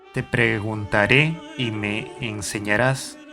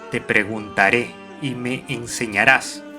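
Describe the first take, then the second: Both takes have the same delivery.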